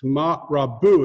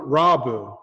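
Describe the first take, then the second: First: "rabu" stressed on the last syllable; correct syllable stress. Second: "rabu" stressed on the first syllable; wrong syllable stress. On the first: Teacher showing Hebrew accent, "rabu" with final stress. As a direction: land firmly on the end of "rabu". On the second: Teacher showing the mistake, "rabu" with first-syllable stress. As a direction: punch the opening of "rabu". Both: Shown as a demonstration. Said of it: "it's not rabu".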